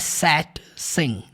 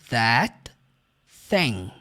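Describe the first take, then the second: First: Both words begin with an s sound. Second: Both words begin with a th sound. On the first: The speaker calls it wrong. "Também não é som de S, tá? Não é sat, sim, não" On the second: The speaker calls it right. "É o som do T H... então você vai pronunciar dessa forma"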